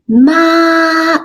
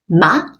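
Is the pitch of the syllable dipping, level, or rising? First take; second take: level; rising. First: The pitch stays high and level. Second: The pitch rises from middle to high. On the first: "that's the first tone" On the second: "I used the second tone. It goes up"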